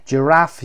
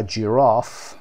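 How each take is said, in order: First: Giraffe with the short a of cat; American pronunciation. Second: جیراف with a long ah, as in ji-RAHF; British pronunciation. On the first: Teacher contrasting US and British forms, American short a in Giraffe. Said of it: "Giraffe یو اس هست". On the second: Teacher contrasting US and British forms, British long ah in جیراف. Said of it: "جیراف بریتیش هست". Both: Shown as a demonstration.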